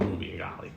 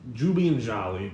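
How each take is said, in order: First: The names begin with a hard G sound. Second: The names begin with a J sound. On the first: This is how the names are said here. "so we call them Gooby and Golly" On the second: This is how the names were said where they used to live. "the G's were pronounced as J's"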